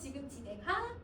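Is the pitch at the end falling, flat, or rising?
rising. The pitch rises at the end. It is a question. "선생님 마이크를 올렸어. 의문문이지"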